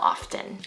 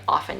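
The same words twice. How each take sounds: First: The word is said in a careful, effortful way. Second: The word is said in a relaxed, low-effort way. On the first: The speaker calls it wrong. "not often. Often is just too much work" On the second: The speaker calls it right. "Often is just so nice to say. And that's what us native English speakers say"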